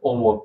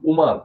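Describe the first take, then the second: First: The name begins with an 'o' sound. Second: The name begins with a 'u' sound. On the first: The speaker calls it wrong. "ও ওদের লিখে ওমর" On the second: The speaker calls it right. "এগুলো সহি উচ্চারণ।"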